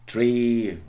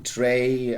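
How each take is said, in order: First: It is said in an RP accent. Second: It is said in a Cockney accent.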